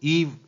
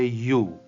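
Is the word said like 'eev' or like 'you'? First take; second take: eev; you. First: It is said like 'eev', with a v sound. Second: It is said like 'you', with no v sound. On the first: The speaker calls it wrong. "पहली बात तो इसका उच्चारण ईव नहीं होगा" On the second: The speaker calls it right. "इसको कहेंगे यू"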